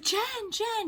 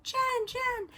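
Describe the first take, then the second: First: High, sing-song call of a name, mildly mocked; imitating calling out. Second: High, sing-song call of the name, exaggerated; mock her calling from further away; imitating calling out. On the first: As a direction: call her name across the sidewalk, mock-sweet. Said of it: "So she's like". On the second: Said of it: "She's like".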